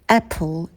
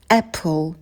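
The two takes are said the same way.

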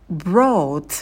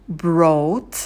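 Both takes have the same delivery.

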